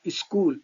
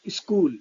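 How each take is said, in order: Both takes have the same delivery.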